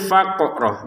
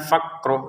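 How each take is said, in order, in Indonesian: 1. Bunyi q dipantulkan, ada letupan. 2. Bunyi q biasa, tanpa pantulan. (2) "jangan sekedar faqro"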